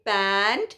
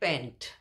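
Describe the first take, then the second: First: The vowel is said with a wide-open mouth. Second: The vowel is said with a less open mouth. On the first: The speaker calls it right. "मुंह फाड़ के पैंट" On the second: The speaker calls it wrong. "Generally लोग इन दोनों शब्दों का उच्चारण एक ही तरीके से करते हैं"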